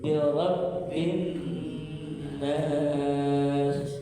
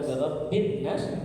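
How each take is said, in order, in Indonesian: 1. Bunyi sengaunya ditahan sebentar. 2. Bunyi sengaunya sebentar, tidak ditahan. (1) "tapi tahan dulu" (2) "bukan birabbin nas"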